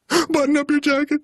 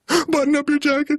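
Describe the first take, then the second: First: The voice sounds fearful. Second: The same.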